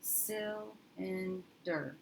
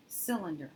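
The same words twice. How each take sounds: First: Cylinder stretched very slowly with a short "sil"; slow corrected sounding out. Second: Said in the usual way. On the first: Shown as a demonstration. Teacher retrying the word with a closed first syllable, slowly. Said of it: "And let's try that". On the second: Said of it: "that is a word I've heard".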